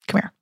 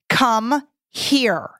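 First: It sounds relaxed, with the H dropped and creaky. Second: It sounds firm and commanding. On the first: This is going to be easy. "we drop the H. Maybe it goes into vocal fry" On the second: Do it now. "which means do it now"

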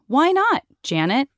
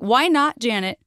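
First: There is a pause before Janet. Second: It is said without a pause before Janet.

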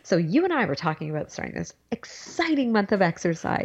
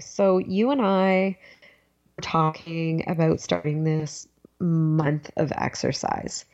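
First: The sentence is said in a peppy, enthusiastic tone. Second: The sentence is said in a plain, ordinary tone. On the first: The speaker calls it right. "So here I go. I'm getting peppy" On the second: The speaker calls it wrong. "try and sound a little more enthusiastic"

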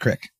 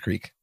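First: The vowel is short, Pennsylvania 'crick'. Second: The vowel is long, as in 'creek'.

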